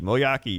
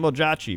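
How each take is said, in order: First: The J is sounded as a Y. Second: The J is sounded as a J.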